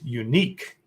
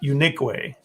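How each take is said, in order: First: It ends with a plain 'k' sound. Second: It ends with an added 'ay' syllable. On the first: It is the ordinary word. "that's the word unique" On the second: It is how the woman says her name. "not unique way"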